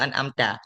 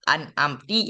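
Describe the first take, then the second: First: The word ends in the vowel a. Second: The word ends in the vowel i. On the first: The verse keeps its proper meaning. The speaker calls it right. "bacaan yang betul iaitu an amta" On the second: The meaning of the verse is changed. The speaker calls it wrong. "gue baca an amti"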